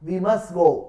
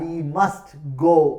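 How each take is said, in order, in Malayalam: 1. must-ലെ അവസാനത്തെ t ഉച്ചരിക്കുന്നില്ല. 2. must-ലെ അവസാനത്തെ t ഉച്ചരിക്കുന്നു. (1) "when the last sound of a word disappears" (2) "we must go എന്നല്ല"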